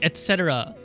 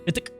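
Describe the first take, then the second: First: It is said as a full four-syllable word. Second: It is said as a short two-syllable word. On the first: The speaker calls it right. "I've taught myself to say et cetera" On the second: The speaker calls it wrong. "I used to pronounce et cetera as idic"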